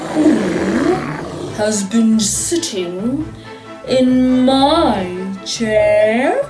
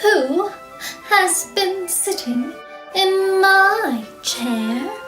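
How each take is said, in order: First: It is growled in a great big voice. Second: It is said in a middle-sized voice.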